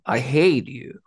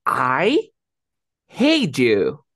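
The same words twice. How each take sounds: First: "I hate you" rising to a peak on "hate", then falling; start low, rise, fall. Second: "I hate you" with every word punched loud; emphatic, loud "I", then "hate you" falling hard; stress on all three. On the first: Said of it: "Empiezo abajo, subo y bajo". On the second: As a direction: hit "I", "hate" and "you" separately, with pauses. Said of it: "Y lo estreso los tres". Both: Shown as a demonstration.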